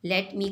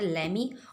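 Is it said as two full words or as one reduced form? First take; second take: full; reduced. First: Both words are pronounced fully and separately. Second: The words are blended into one reduced form.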